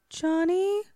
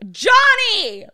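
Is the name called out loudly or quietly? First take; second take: quietly; loudly. First: The name is called out very quietly. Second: The name is yelled out loudly. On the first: The speaker calls it wrong. "Kind of like you trying to like hail a waitress in a restaurant like far too quietly" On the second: The speaker calls it right. "use your voice. Like, yell it"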